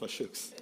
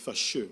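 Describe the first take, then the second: First: The name ends with a final 'ks' sound. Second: The name ends without a final 'ks' sound. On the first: The speaker calls it wrong. "not Fashooks" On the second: The speaker calls it right. "It's Fasheux"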